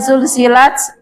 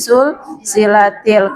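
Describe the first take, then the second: First: The word ends on a bare t sound. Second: The final t carries an added i vowel. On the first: This is the original form of the word. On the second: The word is joined to a following article. "disambung dengan alif lam menjadi"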